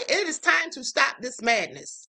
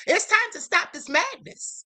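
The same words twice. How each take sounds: First: "It is" spelled out, each word firm and falling; emphatic, slow. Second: "time" pushed up high and held; stress on time. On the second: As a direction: lean hard on "time". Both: Real, not acted.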